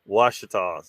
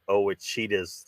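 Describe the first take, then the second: First: The name begins directly with a 'w' sound. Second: The name begins with an extra 'oh' sound. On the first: The speaker calls it right. "It's the Washitas" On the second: The speaker calls it wrong. "Somebody somebody pronounced it Owachitas the other night"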